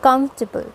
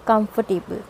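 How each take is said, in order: First: Comfortable as KUMF-tuh-bul; comfortable squeezed into three syllables; three-syllable pronunciation. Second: Comfortable as kum-fer-TAY-bul; comfortable with a full "table" ending; four-syllable mispronunciation. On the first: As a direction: stress the first part of comfortable, drop the "or". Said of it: "exactly जो correct pronunciation है". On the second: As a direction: sound all four parts of comfortable, with "tay". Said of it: "not comfortable". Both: Shown as a demonstration.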